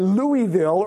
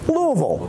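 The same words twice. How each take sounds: First: It is said the way outsiders say it. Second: It is said the way Kentucky locals say it. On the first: The speaker is not from Kentucky. The speaker calls it wrong. "you right away know they're not from Kentucky" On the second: The speaker is from Kentucky. The speaker calls it right. "properly pronounced"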